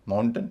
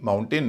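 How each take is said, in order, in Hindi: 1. दूसरे अक्षर में छोटा, हल्का स्वर है। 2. दूसरे अक्षर में पूरा 'ay' स्वर है। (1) "माउंटन या माउंटेन कहेंगे" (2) "इसे भी माउंटेन नहीं कहेंगे"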